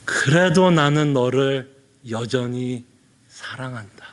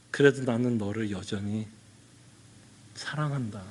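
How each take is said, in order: First: Slow, low, lingering assurance; slower repeat of God's love. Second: Low, gentle assurance; God's tender love. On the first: Pastor repeating God's words to a sinner, slow and tender. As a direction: draw each word out, tenderly. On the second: Pastor voicing God assuring a sinner, tender and low. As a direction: say it softly, like a father. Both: Retold or imitated. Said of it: "하나님이 뭐라고 말씀하는 것 같아요?".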